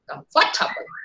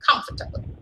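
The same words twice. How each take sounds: First: The stress is on the second syllable. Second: The stress is on the first syllable. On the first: The speaker calls it wrong. "If you are shifting the stress to second one" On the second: The speaker calls it right. "Is it not?"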